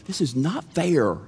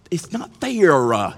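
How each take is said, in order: First: Said in the usual way. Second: Higher mock middle-schooler "fair, uh"; three-syllable whine. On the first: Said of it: "if you're gonna say it right". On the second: Shown as a demonstration. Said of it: "say it with three syllables".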